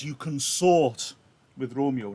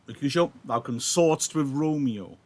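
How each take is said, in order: First: "consort" drawn out slowly and leaned on; slow, pointed "consort" with a hidden insult; stress on consort. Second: Said in the usual way. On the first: Shown as a demonstration. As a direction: say "You consort" slowly, weighting "consort". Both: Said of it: "that's got a double meaning".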